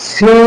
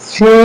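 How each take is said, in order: Both takes have the same delivery.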